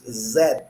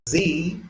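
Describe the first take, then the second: First: The letter is said the British way. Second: The letter is said the American way. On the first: "they use Z for instance" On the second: "instead of saying Z"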